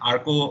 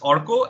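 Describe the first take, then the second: First: The name begins with an 'ar' sound. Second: The name begins with an 'or' sound. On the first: The speaker calls it wrong. "it's not Arco" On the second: The speaker calls it right. "it's Orko"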